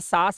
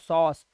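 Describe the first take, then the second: First: The vowel is an open 'aa' sound. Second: The vowel is a rounded 'aw' sound. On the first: The speaker calls it wrong. "अब मैं इसे सास नहीं पढ़ रहा हूँ" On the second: The speaker calls it right. "सॉस ऑ की आवाज में"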